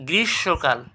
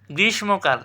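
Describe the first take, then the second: First: গ্রীষ্মকাল as "grish-shokal"; silent m. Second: Said in the usual way. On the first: Shown as a demonstration. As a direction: drop the m, double the sh in গ্রীষ্মকাল. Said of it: "এটা কী হবে?". (গ্রীষ্মকালকে "গ্রিশ্-শোঁকাল" উচ্চারণ) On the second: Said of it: "আমরা কিন্তু কেউ গ্রীষ্মকাল বলি না".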